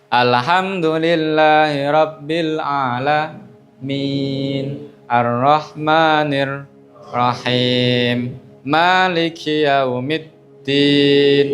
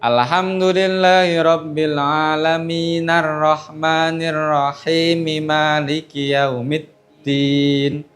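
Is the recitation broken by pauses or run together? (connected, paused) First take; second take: paused; connected. First: It stops and pauses at the end of each verse. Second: The verses run together without stopping between them.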